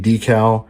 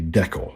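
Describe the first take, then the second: First: It is said the usual American way. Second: It is said the usual British way. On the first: This is how most modelers in the United States say it. "In the United States, most modelers say decal" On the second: This is how most modelers in the United Kingdom say it. "over in the United Kingdom, most of those modelers and other modelers around the world will say decal"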